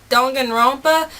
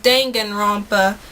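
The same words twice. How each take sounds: First: Danganronpa in her natural Southern twang; southern accent. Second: Danganronpa said carefully, each syllable even, Japanese-style; proper pronunciation. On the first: Vlogger showing how her Southern accent says it. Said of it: "made my southern accent really pop". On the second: Vlogger correcting herself with the proper pronunciation. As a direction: pronounce Danganronpa as dan-gan-ron-pa, evenly. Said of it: "but it's pronounced Danganronpa". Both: Shown as a demonstration.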